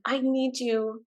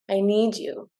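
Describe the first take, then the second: First: It is high and whiny, from the head. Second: It is deepest, resonating low in the belly.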